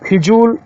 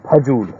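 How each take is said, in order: First: The first syllable has an 'i' vowel. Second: The first syllable has an 'a' vowel. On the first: The speaker calls it wrong. "गलत शब्द है" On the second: The speaker calls it right. "होता है फजूल"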